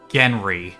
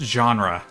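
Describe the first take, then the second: First: The word ends with an 'ee' sound. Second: The word ends with an 'uh' sound. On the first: The speaker calls it wrong. "He just pronounced genre as Genry" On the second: The speaker calls it right. "it's pronounced genre"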